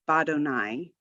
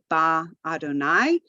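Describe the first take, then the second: First: The prefix merges into the word's first syllable. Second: The prefix is said as its own syllable. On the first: The speaker calls it right. "we say badonai" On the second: The speaker calls it wrong. "we don't say ba Adonai"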